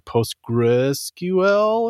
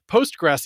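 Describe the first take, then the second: First: The name ends with the letters 'S-Q-L'. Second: The name ends with the sound 'gres'. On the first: The speaker calls it wrong. "which makes you want to say PostgreSQL or something" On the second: The speaker calls it right. "I am saying that correctly"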